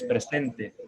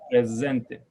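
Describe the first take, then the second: First: The middle s is a hissing sound. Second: The middle s is a buzzing z sound. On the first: This is the Spanish pronunciation. "es presente" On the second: This is the Ladino pronunciation.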